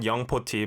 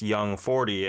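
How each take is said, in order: First: It is said with a Korean pronunciation. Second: It is said with an English pronunciation. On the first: "in Korea, we pronounce it Young Poti" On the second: "but in English, it's Young forty"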